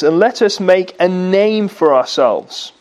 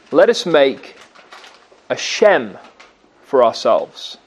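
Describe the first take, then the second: First: Said in the usual way. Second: Shem said low and slow, each word falling; a low, slow, deliberate Shem; stress on Shem. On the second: Shown as a demonstration. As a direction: drop the voice and lean on Shem.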